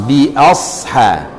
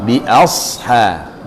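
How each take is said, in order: Both takes have the same delivery.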